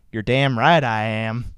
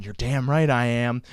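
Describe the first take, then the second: First: A mild mock Southern growl, lower; imitating Mike. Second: Said in the usual way. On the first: Host mimics his co-host Mike answering him, lightly voiced. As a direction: do Mike's voice, lightly. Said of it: "I gotta do it in his voice". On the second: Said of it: "he's probably listening right now going".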